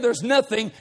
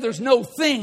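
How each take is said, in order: First: It is said as one run-together word. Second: It is said as two separate words. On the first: Every problem is lumped together. The speaker calls it wrong. "if you say there's nothing, you just kind of lump everything together" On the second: One specific problem is singled out. The speaker calls it right. "if you can say there's no thing, you'll pick out a solid problem"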